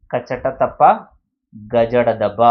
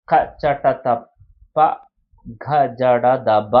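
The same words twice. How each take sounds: First: కచట తప్ప, గజడ దబ said lightly, without breath on the consonants; light unaspirated letters. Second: కచట తప్ప, ఘజడ దబ each consonant pressed hard with a puff of breath, very slowly; aspirated stressed letters. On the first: Teacher showing class the light letters కచట తప్ప, gently unaspirated. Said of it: "తేలికగా పలికే అక్షరాలను అల్ప ప్రాణాక్షరాలు". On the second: Teacher demonstrating the heavy letters to class, slow and aspirated. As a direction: push breath into ఘజడ దబ, syllable by syllable. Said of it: "మహాప్రాణ అంటే ఒత్తి పలికే అక్షరాలు". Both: Shown as a demonstration.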